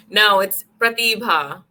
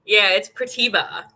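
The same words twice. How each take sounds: First: Pratibha with rolled r and breathy bh, slow; Indian accent. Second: Pratibha with American r and flat schwa ending; Pratibha, quick American vowels; American accent. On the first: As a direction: Pratibha said slowly, Indian style. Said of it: "In the Indian accent". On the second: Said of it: "American accent". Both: Shown as a demonstration.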